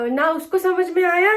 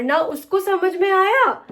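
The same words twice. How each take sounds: First: Said in the usual way. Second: "आया" dragged slow and high, falling; stumbling over "ना उसको समझ में आया"; a vlogger flubbing her line, drawn out; fumbled take. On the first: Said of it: "मुझसे नहीं हो रही है". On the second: Shown as a demonstration. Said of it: "किस तरीके से कर रही हूँ मैं".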